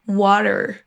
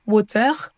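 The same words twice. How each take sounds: First: Slow WATER with schwa plus American R. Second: WATER ending in a French R. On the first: Teacher giving the correct version, American WATER. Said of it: "pas un R à la française". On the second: Teacher warning French learners off it, French-accented WATER. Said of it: "On dit pas". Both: Shown as a demonstration.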